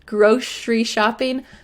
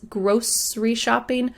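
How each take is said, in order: First: Grocery has a sh sound in the middle. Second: Grocery has an s sound in the middle. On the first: "grosh, with a sh in the middle" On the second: "some people say grocery with an S"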